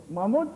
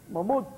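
Both takes have the same delivery.

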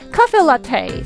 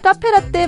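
First: The final vowels glide on into an 'ee' sound. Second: The final vowels end on a short plain 'e'. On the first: The speaker calls it right. "영어에서는요 이거 카페 라떼 카페 라떼 자 이렇게 발음합니다" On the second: The speaker calls it wrong. "우리 카페라떼 카페라떼 많이 하는데"

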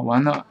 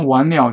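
First: The second syllable is a light, toneless 'le'. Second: The second syllable is a full, toned 'liao'. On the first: Things are hopeless. "像白话完了，有点感叹" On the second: Something has been completed. "那完了是完成"

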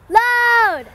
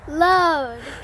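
First: It is yelled as loud as possible. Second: It is said at normal speaking volume.

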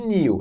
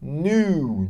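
First: It is said with a y glide, like nyoo. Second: It is said without a glide, like noo. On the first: The speaker calls it wrong. "Nada de new" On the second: The speaker calls it right. "é new. Tipo quando você tá peladão, você fica new"

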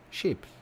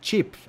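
First: The word begins with a soft 'sh' sound. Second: The word begins with a 't' then 'sh' sound. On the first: "I say ships in French" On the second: "chips with a T"

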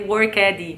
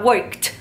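First: The -ed ending is pronounced heavily as extra syllable. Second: The -ed ending is soft, with no extra syllable. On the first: The speaker calls it wrong. "eu não vou pronunciar o ed" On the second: The speaker calls it right. "Fala bem suave"

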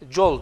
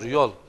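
First: The word begins with a j sound. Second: The word begins with a y sound. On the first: This is the Kazakh form of the word. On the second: This is the Turkish form of the word.

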